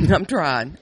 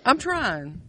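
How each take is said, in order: First: Said in the usual way. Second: Much higher, lighter repeat; pleading insistence. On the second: Real, not acted. Explaining the name to a confused friend, pleading insistence. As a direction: plead it high, half-joking. Same words repeated in mock plea.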